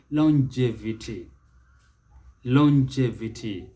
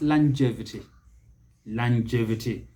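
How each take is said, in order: First: Longevity as lon-JEV-ity, rounded o; British pronunciation. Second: Longevity as lan-JEV-ity, open first vowel; American pronunciation. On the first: Teacher models British longevity, British pronunciation. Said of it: "That is the British". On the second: Teacher models American longevity, American pronunciation. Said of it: "The Americans". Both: Shown as a demonstration.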